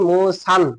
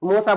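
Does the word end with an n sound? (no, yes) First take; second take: yes; no. First: The word ends with an added n sound. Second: The word ends in a plain vowel. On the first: The speaker calls it right. "এরকম বলেন" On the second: The speaker calls it wrong. "মূসা বলবেন না"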